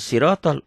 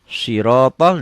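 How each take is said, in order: First: The first consonant is a plain, light s. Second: The first consonant is a heavy, emphatic s. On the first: It means something else. The speaker calls it wrong. "bukan sirotol" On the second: It means the path. The speaker calls it right. "dengan ini"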